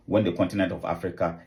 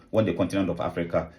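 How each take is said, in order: Both takes have the same delivery.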